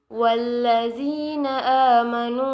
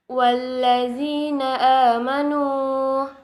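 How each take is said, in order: First: The final word runs on into the next phrase. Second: The recitation stops after the final word.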